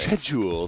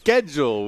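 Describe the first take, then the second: First: It begins with a soft SH sound. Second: It begins with a hard K sound. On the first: "sounds extraordinarily British" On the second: "we do an, a hard K sound for that"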